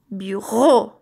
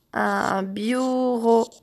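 First: "Bureau" with its last syllable punched; stress on RO. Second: Said in the usual way. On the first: Shown as a demonstration. Teacher showing children the syllable ro, "Bureau" with RO stressed. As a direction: hit the final "reau" of "Bureau". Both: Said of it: "C'est la même syllabe".

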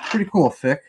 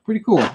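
First: Said in the usual way. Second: "Pretty cool" said up high with a lift; pumped-up "Pretty cool". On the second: Real, not acted. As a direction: hype it up, pitched high. Repeating his own remark.

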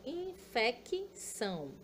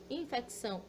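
First: Infecção slowed to in-fe-ki-ção; slow syllable-split infecção. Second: Said in the usual way. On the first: Shown as a demonstration. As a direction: stretch infecção out, sounding each syllable.

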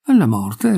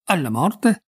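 First: ALLA MORTE said evenly, near usual pitch; mild, modestly smiling repeat of ALLA MORTE; modest confirmation. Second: ALLA MORTE as a high, rising query; puzzled echo of ALLA MORTE, pitched up; bewildered question. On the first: Young lady repeats her answer, ALLA MORTE modestly confirmed. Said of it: "ripeté con un modesto sorriso". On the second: Pogliani echoes the young lady, ALLA MORTE asked in bewilderment. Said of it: "Si sposa?". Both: A narrator's reading.

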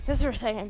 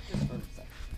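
First: Said in the usual way. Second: Quick unvoiced whisper. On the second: Real, not acted. Whispering to a viewer while mom vacuums. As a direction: breathe it with no voice.

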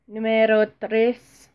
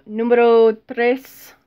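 First: Slow mock Spanish "Numero tres" with a rise at the end; a second hammy Spanish take of "Numero tres"; bad Spanish accent. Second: Slow, drawn-out mock Spanish numero tres; overdone Spanish accent on "numero tres"; bad Spanish accent. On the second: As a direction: roll out "numero tres" like a hammy Spanish speaker. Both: Shown as a demonstration. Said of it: "that's terrible accent".

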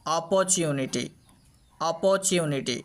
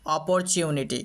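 First: "অপরচুনিটি" with the র left silent, long o in প. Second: "অপরচুনিটি" with the র sounded after প; R pronounced. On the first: Teacher shows first rule, অপরচুনিটি with silent r. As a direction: drop the r sound in অপরচুনিটি. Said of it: "আরটাকে silent করে দিই". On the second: Teacher shows the other way, অপরচুনিটি with r sounded. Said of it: "আরও একভাবে উচ্চারণ করতে পারি". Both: Shown as a demonstration.

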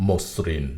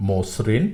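First: মসৃণ said "mos-srin", s held double; variant with doubled s. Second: মসৃণ said "mo-srin", s begins the second syllable; variant with single s. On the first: Teacher repeating the second accepted variant, "mos-srin". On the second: Teacher repeating the first accepted variant, "mo-srin". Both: Shown as a demonstration. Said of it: "দুটি উচ্চারণেই সঠিক".

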